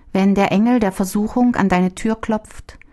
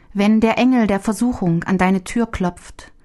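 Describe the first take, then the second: No difference in how they are said.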